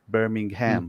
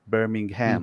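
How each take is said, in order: First: It is said with an American pronunciation. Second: It is said with an American pronunciation.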